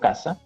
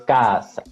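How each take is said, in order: First: It is said with a plain Spanish accent. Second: It is said with a Portuguese accent. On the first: "digo casa" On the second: "pero el acento es casa. Eso está fatal"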